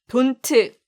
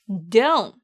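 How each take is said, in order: First: The final t sound is clearly pronounced. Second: The final t sound is dropped. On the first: The speaker calls it wrong. "아니에요" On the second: The speaker calls it right. "끝에 있는 t를 발음하지 않아서 don't 이라고 발음하시면 돼요"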